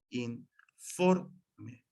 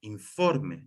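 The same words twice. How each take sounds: First: In... FOR... me, slowly split with the O stressed; syllable by syllable. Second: Said in the usual way. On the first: Shown as a demonstration. Teacher showing where the accent falls, "informe" slowly split, stressed FOR. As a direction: break "informe" into three syllables, leaning on FOR. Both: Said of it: "se marca el acento en la O".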